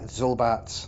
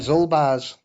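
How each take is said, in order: First: The name ends with a sharp ts sound. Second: The name ends with a soft buzzing z. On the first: "Maybe the Z's a bit sharper at the end" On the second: "I call him Zulbaz"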